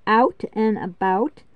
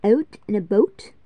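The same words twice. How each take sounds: First: Said in the usual way. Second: Out and about as Canadian "oat and a boat"; Canadian raised vowels in out and about; Canadian accent. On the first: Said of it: "That's us". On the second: Shown as a demonstration. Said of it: "Canadians would say it".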